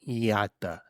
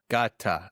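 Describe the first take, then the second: First: The word starts with a soft Y-like sound. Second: The word starts with a hard G sound. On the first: The speaker calls it right. "you start pronouncing the G sound, but then you switch to a Y" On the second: The speaker calls it wrong. "Apparently it's pronounced Gata"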